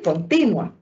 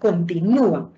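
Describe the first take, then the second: First: The stress falls on the syllable before u. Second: The stress falls on the syllable with u. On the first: Something is constant or uninterrupted. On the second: Something is still going on.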